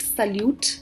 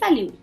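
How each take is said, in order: First: The word ends with a pronounced T sound. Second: The word ends without any T sound. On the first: The speaker calls it wrong. "do not call it salute because they don't pronounce the T in the end" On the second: The speaker calls it right. "the T at the end of it is silent"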